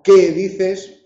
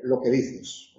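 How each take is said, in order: First: Qué dices with qué stressed and slow. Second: Lo que dices with que light and soft; unstressed que. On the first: Teacher showing that qué is stressed, slow. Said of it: "pronombres y adverbios interrogativos son tónicos". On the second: Teacher showing the unstressed que, soft. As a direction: let the que in lo que dices stay weak. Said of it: "La conjunción es átona". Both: Shown as a demonstration.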